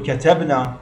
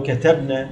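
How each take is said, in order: First: كتبنا ending in long -naa; first-person plural ending. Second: كتبنا ending in short -na; feminine plural nun. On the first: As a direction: say كتبنا as katabnaa. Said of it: "ناء المتكلمين". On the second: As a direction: say كتبنا as katabna with a short last vowel. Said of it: "نون النسوة". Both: Shown as a demonstration.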